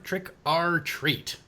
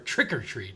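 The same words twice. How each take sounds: First: The phrase is said at a slower, careful pace. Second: The phrase is said quickly, run together.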